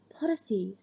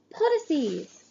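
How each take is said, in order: First: Hushed urgent whisper of a name. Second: Name called out higher and louder. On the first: Sister whispering brother's name in the crowd, hushed. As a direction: breathe the name secretly. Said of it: "it whispers". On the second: Sister calling her brother's name again, louder. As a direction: call him out boldly. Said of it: "louder this time". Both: A narrator's reading.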